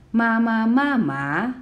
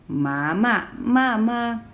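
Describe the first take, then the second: First: Slow "Ma ma ma ma", high start, dipping last "ma"; mother-scolds-horse tones. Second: Slow "Ma ma ma ma", dipping first "Ma", level ending; horse-scolds-mother tones. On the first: Teacher's mother-scolds-horse sentence, slow "Ma ma ma ma" ending on a dip. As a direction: begin "Ma ma ma ma" high and level, end dipping then rising. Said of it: "the mother is scolding the horse".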